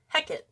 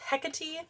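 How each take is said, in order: First: The name is pronounced in the Shakespearean way. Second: The name is pronounced in the anglicized English way. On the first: "in Shakespearean, it's Hecate" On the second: "the angle size is Hecate"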